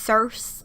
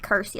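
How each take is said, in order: First: The name does not begin with a k sound. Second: The name begins with a k sound. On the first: The speaker calls it wrong. "I've seen it pronounced Circe" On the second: The speaker calls it right. "it's supposed to be pronounced Kersey, like with a K"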